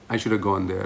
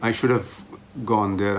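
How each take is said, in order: First: The word 'have' is reduced to a short 'a'. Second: The word 'have' is pronounced fully. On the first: "I'm saying" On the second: "instead of saying"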